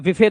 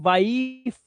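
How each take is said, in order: First: It has a short i and a vowel after f. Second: It has a long i and ends on f. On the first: The speaker calls it wrong. "या विफे तो बोलते नहीं" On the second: The speaker calls it right. "इसे वाइफ इसलिए बोलते हैं"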